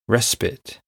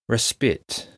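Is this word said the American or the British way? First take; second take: American; American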